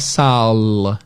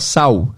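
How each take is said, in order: First: The word ends with a clear L sound. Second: The word ends with a U-like sound. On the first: This is not how Portuguese speakers say it. "a gente não fala sal" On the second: This is how Portuguese speakers say it. "Esse L tem som de U"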